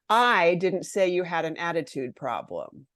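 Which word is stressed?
I. The stress falls on the word I. Someone else said it. "I didn't do it. Someone else did"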